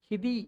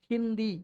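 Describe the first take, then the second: First: The word has no nasal sound before the 'd'. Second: The word has an 'n' sound before the 'd'. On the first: The speaker calls it wrong. "ஹிதி அப்படின்னு படிக்காம" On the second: The speaker calls it right. "அந்த இன் உச்சரிப்பு வருது"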